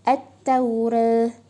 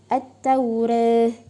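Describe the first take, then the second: The two takes are said the same way.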